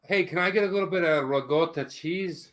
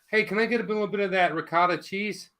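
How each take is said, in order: First: It is said in a Buffalo Italian-American accent. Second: It is said in a standard American accent.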